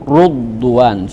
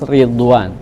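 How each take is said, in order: First: The first vowel is u. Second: The first vowel is i. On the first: This follows another reading tradition. "dia baca ru" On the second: This follows one reading tradition. "tetap sama seperti Hafiz"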